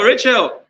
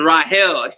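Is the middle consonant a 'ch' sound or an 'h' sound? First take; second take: ch; h. First: The middle consonant is a 'ch' sound. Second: The middle consonant is an 'h' sound. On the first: This is the usual way people say the name. "you used to call Rachel" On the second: This is the original way to say the name. "the correct way to pronounce um, R A C H E A L is Rahel"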